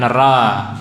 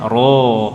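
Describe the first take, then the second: First: The r syllable sounds light and thin. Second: The r syllable sounds heavy and dark. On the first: The speaker calls it wrong. "bukan ra" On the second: The speaker calls it right. "ro tebal"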